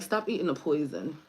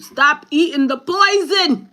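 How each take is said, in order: First: Said in the usual way. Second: High, loud, drawn-out shouted command; scolding inner voice. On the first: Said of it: "but yeah, it's like". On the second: Acted. Inner voice telling the speaker off about food, hollered. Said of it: "my inside keep telling me".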